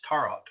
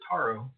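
First: The final T is clearly sounded. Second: The final T is silent. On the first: "pronounce that final T" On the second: "I usually pronounce it Taro"

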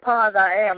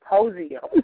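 First: The name is split into separate words. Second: The name is run together as one word. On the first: The speaker calls it right. "you was like" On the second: The speaker calls it wrong. "I was pronouncing it as POSIO"

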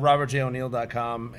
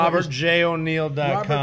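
First: It is said at a quick pace. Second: It is said at a slow pace.

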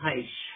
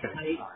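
First: The name ends with an 'sh' sound. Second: The name ends without an 'sh' sound. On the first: The speaker calls it right. "but it's a sh at the end" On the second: The speaker calls it wrong. "I said like Haish"

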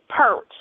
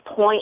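First: It is said like Southern speakers in Atlanta. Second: It is said with a standard pronunciation.

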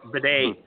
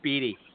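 First: The name sounds like 'bidet', stressed last. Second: The name sounds like 'Beattie', stressed first. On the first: This is how the announcers said it. "Bidet. That was it" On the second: This is not how the announcers said it. "it wasn't Beattie"

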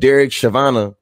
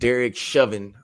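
First: The surname is pronounced in an altered way. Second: The surname has its usual pronunciation.

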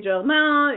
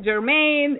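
First: The name is pronounced the French way. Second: The name is pronounced the American way. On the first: "I say Jermain" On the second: "the American way of saying it"

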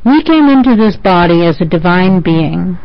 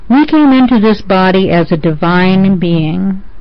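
First: It is spoken at a faster pace. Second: It is spoken at a slower pace.

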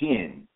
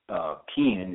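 First: The word begins with a sh sound. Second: The word begins with a k sound. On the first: The speaker calls it right. "It's pronounced shin" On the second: The speaker calls it wrong. "It's not pronounced kin"

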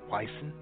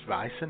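First: The word begins with a W sound. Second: The word begins with a V sound. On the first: The speaker calls it wrong. "and not Weissen" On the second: The speaker calls it right. "spelled with a W and not a V, but it's pronounced Weissen"

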